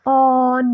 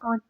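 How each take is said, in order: First: The vowel is drawn out long. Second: The vowel is clipped short. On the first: The speaker calls it wrong. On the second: The speaker calls it right.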